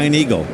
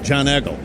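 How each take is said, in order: First: Each word is said with its standard vowels. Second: The words sound squeezed, like John and Eggle.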